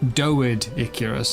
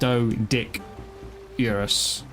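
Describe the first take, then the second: First: It is split as doed, Icarus. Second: It is split as doe, dick, urus. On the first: "maybe it's meant to be" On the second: "I would have gone with"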